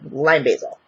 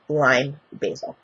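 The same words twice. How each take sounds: First: The two words run together as one word. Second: The two words are said separately, with a break. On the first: The scents blend into a single scent. The speaker calls it right. "Like one word" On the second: The two scents are noticed separately. The speaker calls it wrong.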